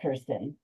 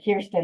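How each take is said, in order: First: The first syllable does not rhyme with beer. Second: The first syllable sounds like 'keer', rhyming with beer. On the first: The speaker calls it wrong. "not Kirsten" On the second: The speaker calls it right. "it's Kirsten, like Kier, like beer"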